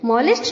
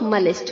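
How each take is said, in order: First: The first vowel sounds like 'o' in hot. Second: The first vowel is a short, weak 'uh'. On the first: The speaker calls it wrong. "Incorrect pronunciation करते हैं, मॉलिस्ट बोलते हैं। मॉलिस्ट नहीं होता है" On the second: The speaker calls it right. "मलिस्ट होता है।"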